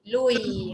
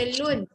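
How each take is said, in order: First: The n merges into a following y sound. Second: The syllable ends with a clear n sound. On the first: The speaker calls it right. "Masuk bunyi ya" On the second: The speaker calls it wrong. "Jangan baca lun"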